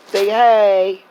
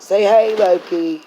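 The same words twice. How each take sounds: First: Sing-song pet voice. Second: Cheerful call to the dog; talking to the dog. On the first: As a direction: coo at the dog to say hi. Coaxing dog again. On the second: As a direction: coax the dog to say hi. Coaxing dog to greet viewers. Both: Real, not acted.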